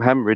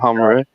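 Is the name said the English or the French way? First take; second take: English; French. First: The name is said with English pronunciation. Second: The name is said with French pronunciation. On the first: The speaker calls it wrong. "You don't call him Henry" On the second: The speaker calls it right. "obviously he's French"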